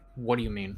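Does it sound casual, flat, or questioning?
flat. It sounds flat and final, falling.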